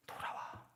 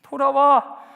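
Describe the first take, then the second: First: Breathy whispered call home; God softly whispering come back. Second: Louder, higher call to return; God calling out come back; loud plea. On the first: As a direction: breathe it like a secret plea. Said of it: "whispered plea". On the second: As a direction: call it out firmly. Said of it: "loud plea". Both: Acted.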